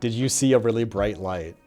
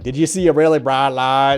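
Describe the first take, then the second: First: The line is said in a plain, unaccented voice. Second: The line is said with a heavy put-on accent.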